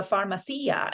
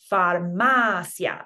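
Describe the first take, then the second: First: "farmacia" stressed far-ma-SEE-a; English-speaker mispronunciation. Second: "farmacia" slow, stressed far-MA-sya; correct diphthong stress. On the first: Teacher imitating English speakers' mistake, far-ma-SEE-a for "farmacia". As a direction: split the ending of "farmacia" and stress the i. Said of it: "that's not actually how it's pronounced". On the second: Teacher showing the proper way, far-MA-sya for "farmacia". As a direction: hit MA in "farmacia", last two vowels as one. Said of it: "counting back from that to get". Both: Shown as a demonstration.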